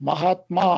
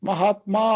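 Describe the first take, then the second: No difference in how they are said.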